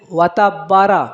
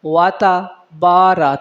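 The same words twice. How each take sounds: First: "واتا بارہ" with the با clipped short; swallowed long vowel. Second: "واتا بارہ" with a long, held با; correct reading. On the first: Teacher shows the common mistake, "واتا بارہ" with short با. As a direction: rush through با in "واتا بارہ". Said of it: "با کو کھا دیا جاتا ہے". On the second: Teacher tells students how to read, "واتا بارہ" with long با. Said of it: "تو آپ نے پڑھنا ہے". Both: Shown as a demonstration.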